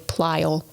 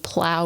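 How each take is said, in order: First: The word is said with a dialect pronunciation. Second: The word is said with a standard pronunciation. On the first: The speaker calls it wrong. "would say plile" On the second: The speaker calls it right. "instead of saying plow"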